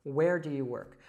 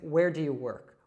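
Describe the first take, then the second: Both takes have the same delivery.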